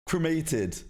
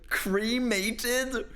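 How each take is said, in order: First: "Cremated" as "kruh-MAY-tid"; British pronunciation. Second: "Cremated" as high, incredulous "CREE-may-tid"; mocking American pronunciation. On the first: Shown as a demonstration. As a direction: correct "Cremated" with a short, unstressed first syllable. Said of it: "You do not say it like that". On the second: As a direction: stretch the first syllable of "Cremated" to "cree". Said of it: "you do not say it like that".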